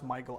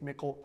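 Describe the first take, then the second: First: The name sounds like the English name Michael. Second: The name does not sound like Michael. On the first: The speaker calls it wrong. "I don't think it's pronounced Michael" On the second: The speaker calls it right. "I think it's Michal"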